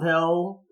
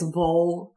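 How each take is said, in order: First: The vowel is a clear 'i' as in 'fill'. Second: The vowel is a reduced 'u' as in 'full'. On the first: This is how outsiders say it. The speaker calls it wrong. "it's not Ville" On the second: This is how the locals say it. The speaker calls it right. "it's Bull to the locals"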